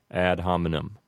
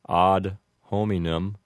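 First: It is pronounced the American English way. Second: It is pronounced the classical Latin way. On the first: "with an Americanized pronunciation, we just say ad hominem" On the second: "a more correct Latin pronunciation would be ad hominem"

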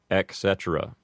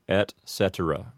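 First: The first word ends with a K sound. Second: The first word ends with a clear T sound. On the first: The speaker calls it wrong. "mispronounced as ec cetera" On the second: The speaker calls it right. "pronounce the T in et clearly"

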